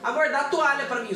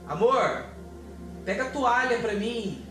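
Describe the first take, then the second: First: It is said loosely and casually. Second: It is said with deep, chest-felt intention.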